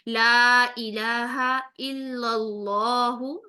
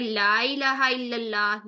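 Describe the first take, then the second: First: The 'Allah' is heavy and the glottal stop strong. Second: The 'Allah' is light and the glottal stop weak. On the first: The speaker calls it right. "इसमें जलाला को भी मोटा पढ़ेंगी, हमजा को भी अलग से उसकी शिद्दत वाली साउंड से" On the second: The speaker calls it wrong. "नहीं पढ़ेंगी आज के बाद"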